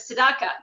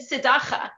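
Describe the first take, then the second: First: The word is said without a throaty ch sound. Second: The word is said with a throaty ch sound. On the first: The speaker calls it right. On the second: The speaker calls it wrong.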